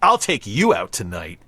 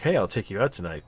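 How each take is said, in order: First: It sounds intense and threatening. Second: It sounds friendly and casual.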